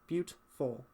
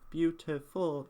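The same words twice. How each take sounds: First: The middle syllable is dropped, giving two syllables. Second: The word is said with three full syllables. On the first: The speaker calls it right. "two syllables" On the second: The speaker calls it wrong. "instead of saying beautiful"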